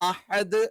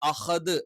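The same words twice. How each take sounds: First: The h is moderately throaty. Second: The h is harsh and overdone. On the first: The speaker calls it right. "ശരിയായ ഉച്ചാരണം" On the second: The speaker calls it wrong. "കുറച്ച് extreme over ആക്കിയിട്ട്"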